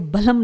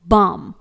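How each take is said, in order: First: An l sound is heard before the m. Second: No l sound is heard before the m. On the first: The speaker calls it wrong. "इसे बलम नहीं पढ़ेंगे" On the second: The speaker calls it right. "यहां पर एल silent रहेगा"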